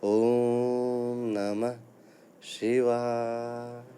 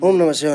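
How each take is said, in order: First: It is said slowly in a calm, quiet voice. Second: It is said quickly and hurriedly, repeated fast. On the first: It is proper recitation that brings benefit. The speaker calls it right. "जितना शांत स्वर में आप पढ़ेंगे उतना आपको लाभ होगा" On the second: It is mere showiness, not real recitation. The speaker calls it wrong. "हमें ना पता नहीं किस बात की जल्दी है"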